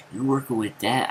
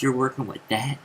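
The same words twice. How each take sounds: First: Teasing challenge, voice lifting at the end; mocking taunt. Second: Cocky jab, rising at the end; mocking taunt. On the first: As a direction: needle him about his bicep. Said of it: "I said something like". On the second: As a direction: sneer at his muscles. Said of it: "that was my message".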